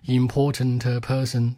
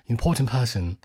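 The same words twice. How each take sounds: First: The word endings are pronounced heavily and fully. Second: The word endings are pronounced lightly and softly. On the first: The speaker calls it wrong. "中国人讲英文就会说" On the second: The speaker calls it right. "就是你把所有的尾音轻一些"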